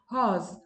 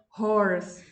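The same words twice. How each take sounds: First: The R sound is left out. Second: The R sound is clearly pronounced. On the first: "in British English, you don't pronounce the R" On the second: "in America, you pronounce the R"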